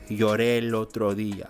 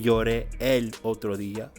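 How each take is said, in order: First: The vowels run smoothly together without a break. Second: The vowels are kept separate with a break. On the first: The speaker calls it right. "but lloré el otro día" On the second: The speaker calls it wrong. "I didn't say lloré el otro día"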